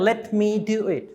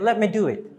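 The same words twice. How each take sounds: First: 'Let me' is said as two full words. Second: 'Let me' is run together into one word. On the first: The speaker calls it wrong. "don't say" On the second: The speaker calls it right.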